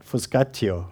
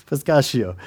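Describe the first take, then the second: First: Fuscatio said slowly, low, Italian style; Italian pronunciation. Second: Fuscatio said plainly, ending in a sh sound; plain pronunciation. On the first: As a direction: pronounce fuscatio with Italian vowels. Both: Shown as a demonstration. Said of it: "I'd have an Italian accent".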